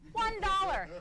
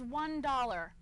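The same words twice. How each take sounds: First: ONE dollar, punched higher and louder; emphatic repeat. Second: Said in the usual way. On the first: Real, not acted. Comic repeating Belgium's price to the crowd, emphatic "One dollar". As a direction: hit "One dollar" high and loud in disbelief.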